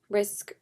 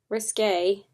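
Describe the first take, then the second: First: It is said as one short syllable, 'risk'. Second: It is said as two syllables, 'ris-kay'. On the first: The speaker calls it wrong. "I always thought it was called Risk" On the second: The speaker calls it right. "it's called Risque, not Risk"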